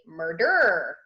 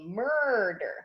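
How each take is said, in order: First: The stress is on the second syllable. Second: The stress is on the first syllable. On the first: The speaker calls it wrong. "we don't say murder" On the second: The speaker calls it right. "we say murder"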